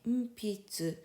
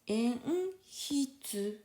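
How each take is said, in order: First: The middle consonant is a p sound. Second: The middle consonant is an h sound. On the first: The kana is written with the small circle. "grâce à petit maru, ça change de prononciation de pi" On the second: The kana is written without the small circle. "Si il n'y a pas de maru, ça vient prononce enhitsu"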